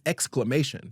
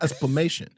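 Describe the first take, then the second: First: The word begins with an 'excl' sound. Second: The word begins with an 'espl' sound. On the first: The speaker calls it right. "that word is exclamation" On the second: The speaker calls it wrong. "It's not esplamation"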